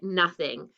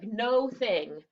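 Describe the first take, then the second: First: It sounds like one normal everyday word. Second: It sounds like the two words no and thing. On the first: "but we pronounce it nothing" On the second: "It's like no thing"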